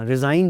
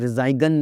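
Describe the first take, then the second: First: The g sound is left out. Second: A g sound is pronounced. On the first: The speaker calls it right. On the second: The speaker calls it wrong.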